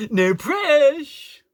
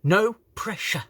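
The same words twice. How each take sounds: First: PRESSURE cut to "presh", high, loud, drawn out; mocking, exaggerated "presh" for PRESSURE; cut-short slang. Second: PRESSURE said in full with both syllables, raised; full word. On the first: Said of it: "don't talk like this". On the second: Shown as a demonstration. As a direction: pointedly finish the word PRESSURE. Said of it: "to finish the fucking word".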